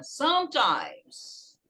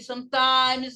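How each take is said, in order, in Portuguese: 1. A tônica está na primeira sílaba. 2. A tônica está na segunda sílaba. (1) "Você pronuncia geralmente a primeira sílaba aqui" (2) "nem sometimes, não"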